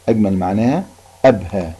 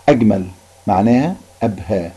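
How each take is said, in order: Both takes have the same delivery.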